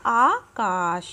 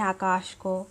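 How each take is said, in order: First: आकाश said carefully as the pure form; correct form demo. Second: आकाश said as the wrong everyday form; wrong form demo. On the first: Teacher giving students the correct form, carefully. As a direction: pronounce आकाश slowly and correctly. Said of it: "इसका शुद्ध रूप क्या होगा?". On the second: Teacher showing students the wrong form, said deliberately. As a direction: say आकाश the careless spoken way. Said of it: "तो ये गलत है". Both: Shown as a demonstration.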